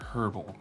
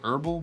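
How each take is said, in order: First: It is pronounced in a non-American way. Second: It is pronounced the American way. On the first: "personally I prefer herbal" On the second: "Americans say herbal"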